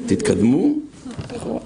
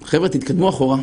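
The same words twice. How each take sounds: First: תתקדמו, a beat of pause, then אחורה; deadpan pause between תתקדמו and אחורה; pause before אחורה. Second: Said in the usual way. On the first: Shown as a demonstration. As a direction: split תתקדמו and אחורה with a pause to land the joke. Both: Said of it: "שאומרים לך".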